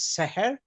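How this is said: It is said in a Maghrebi Jewish pronunciation.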